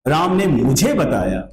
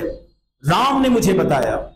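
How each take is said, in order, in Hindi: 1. ज़ोर मुझे शब्द पर है। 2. ज़ोर राम शब्द पर है। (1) "ऑब्जेक्ट पर जोर है।" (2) "सब्जेक्ट पर जोर है।"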